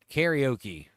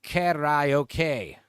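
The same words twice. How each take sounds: First: Karaoke said carry-oh-key; American pronunciation. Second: Karaoke said the Japanese way, ka-ra-o-ke; Japanese pronunciation. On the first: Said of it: "I say that karaoke". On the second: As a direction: karaoke with even Japanese syllables. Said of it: "In Japan, it's pronounced". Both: Shown as a demonstration.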